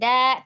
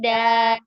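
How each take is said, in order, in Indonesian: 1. Suku kata "da" berakhir dengan hamzah. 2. Suku kata "da" berakhir terbuka, tanpa hamzah. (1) "tidak da" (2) "tidak pakai hamzah"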